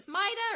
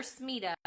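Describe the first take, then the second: First: "Smita" said as SMY-da; long "eye" vowel in "Smita"; alternative pronunciation. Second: "Smita" said as SMEE-da; long "ee" vowel in "Smita"; alternative pronunciation. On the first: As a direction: say "Smita" to rhyme with Ida. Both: Shown as a demonstration. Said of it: "not sure how to say her name".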